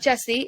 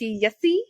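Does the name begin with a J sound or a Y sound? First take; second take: J sound; Y sound. First: The name begins with a J sound. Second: The name begins with a Y sound. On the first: The speaker calls it wrong. "It's not Jesse" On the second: The speaker calls it right. "It's Yessi"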